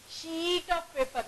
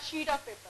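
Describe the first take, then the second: First: The vowel in sheet is long. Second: The vowel in sheet is short. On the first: The speaker calls it right. "Give me a sheet of paper" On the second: The speaker calls it wrong. "not sheet of paper"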